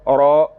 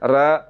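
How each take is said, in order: First: The r is heavy, with a full, rounded sound. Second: The r is thin, with a light, flat sound. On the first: The speaker calls it right. "औरा पढ़ना ... ये ठीक है" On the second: The speaker calls it wrong. "बारीक पढ़ा जा रहा है ... तो ये गलत है"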